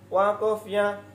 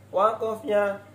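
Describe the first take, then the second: The two takes are said the same way.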